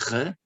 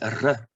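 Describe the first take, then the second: First: The R is said the French way. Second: The R is said the Eastern European way. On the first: The speaker calls it wrong. "like in our bad French language" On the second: The speaker calls it right. "like in many uh, languages in Eastern Europe"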